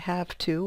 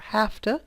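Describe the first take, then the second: First: Both words are pronounced fully and separately. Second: The words blend together into a reduced 'hafta'.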